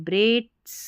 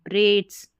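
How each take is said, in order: The two takes are said the same way.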